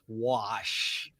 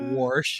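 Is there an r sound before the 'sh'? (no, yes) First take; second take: no; yes. First: The word has no r sound before sh. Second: The word has an r sound before sh. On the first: The speaker calls it right. "it's "wash."" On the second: The speaker calls it wrong. "It's not "warsh,""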